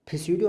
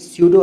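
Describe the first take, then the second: First: The word starts with a p sound. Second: The word starts with an s sound. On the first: The speaker calls it wrong. "ये फिस्यूडो नहीं है" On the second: The speaker calls it right. "ये स्यूडो है सिर्फ"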